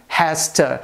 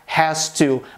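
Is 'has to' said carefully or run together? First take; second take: run together; careful. First: The two words are run together and reduced. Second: The two words are said fully and separately. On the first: This is the usual everyday form. "mas sim" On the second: This is not the usual everyday form. "a gente não costuma pronunciar"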